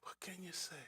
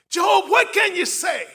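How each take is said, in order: First: Whispered question, almost breath; soft unvoiced repeat; whispered echo. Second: Loud high challenge at Job; full-voice shout; shouted demand. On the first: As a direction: let it drop to a hush. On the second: Acted. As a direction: throw the question at him hard. Friends demand an answer.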